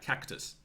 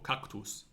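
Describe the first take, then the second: First: The word is said with English-style vowel sounds. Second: The word is said with classical Latin vowel sounds. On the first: This is how biologists usually say it. "often the Old English pronunciation system is still used. So we say things like cactus" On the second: This is how the Romans said it. "for cactus"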